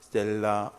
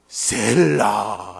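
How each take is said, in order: First: It is said flatly, without feeling. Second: It is said as an excited exclamation.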